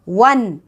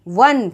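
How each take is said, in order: First: The word starts with a w sound. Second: The same.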